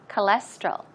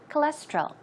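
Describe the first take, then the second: First: The word is said slowly and carefully. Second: The word is said quickly.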